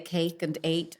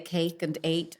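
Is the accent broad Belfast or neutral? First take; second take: neutral; neutral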